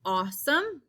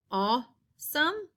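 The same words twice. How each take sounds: First: Said in the usual way. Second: Awesome drawn out, slower; slow stretched awesome. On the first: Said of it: "Our next one we have is". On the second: Shown as a demonstration. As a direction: hold the aw in awesome. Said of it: "A W".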